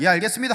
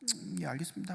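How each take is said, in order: First: It sounds positive and eager. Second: It sounds lukewarm and unenthusiastic.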